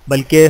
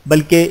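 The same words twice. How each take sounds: The two takes are said the same way.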